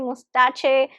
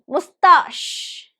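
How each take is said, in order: First: The stress is on the first syllable. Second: The stress is on the second syllable. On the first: The speaker calls it wrong. "we pronounce it as probably mustache, mustache. It is not correct" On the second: The speaker calls it right. "it has only two syllables and the stress is on the second one"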